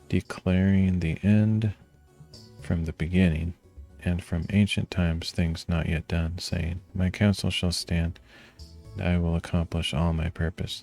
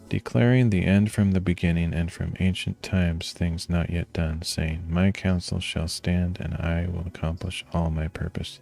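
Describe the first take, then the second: First: It is read at a slower pace. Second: It is read at a faster pace.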